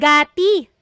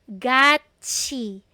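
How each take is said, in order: First: The second syllable starts with a t sound. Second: The second syllable starts with a ch sound. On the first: The speaker calls it wrong. "Hindi yan gati" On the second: The speaker calls it right. "It's read as gachi"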